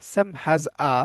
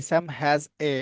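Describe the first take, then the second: First: Final word said as a short আ, not এ; reading pronunciation. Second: এ said as a full letter name এ; common reading. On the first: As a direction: swap the এ for a light আ at the end. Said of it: "but এটাকে আপনি কি বলতে পারেন?". (পড়ার সময় এ-র বদলে আ উচ্চারণ) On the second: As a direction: read the final এ the usual way, like the letter. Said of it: "এটাকে আমরা অনেকে কি বলি?". (সাধারণভাবে এ উচ্চারণ) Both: Shown as a demonstration.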